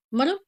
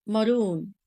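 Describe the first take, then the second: First: "Maroon" said wrongly as a question, short oo; mock the wrong "Maroon"; wrong pronunciation. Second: "maroon" said right with a long oo; the right "maroon", stretched vowel; correct pronunciation. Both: Shown as a demonstration. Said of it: "No, maroon".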